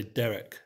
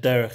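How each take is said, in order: First: "Derek" ending in a hard k, no guttural. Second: "derech" ending in a throaty kh; guttural ch. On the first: Teacher imitating some people's Hebrew, "Derek" with hard k. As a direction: say "Derek" like the English name. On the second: Teacher showing the Hebrew word, "derech" with guttural kh. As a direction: say "derech" with a Hebrew chet at the end. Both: Shown as a demonstration. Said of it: "some people say Derek".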